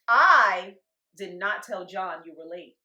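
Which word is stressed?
I. The stress is on the word I.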